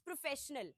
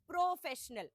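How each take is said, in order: First: The first syllable is quick with a reduced vowel. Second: The first syllable has a full 'o' vowel. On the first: The speaker calls it right. "प्र में ओ की मात्रा हम नहीं लगा रहे हैं। प्र is normally प्र" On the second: The speaker calls it wrong. "rather than professional"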